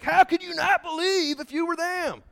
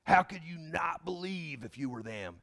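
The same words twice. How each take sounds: First: Much higher, exasperated question; incredulous. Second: Said in the usual way. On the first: Retold or imitated. Believers today scoffing at people of old, high and incredulous. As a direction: ask it in mock disbelief at the ancients. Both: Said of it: "And we're like".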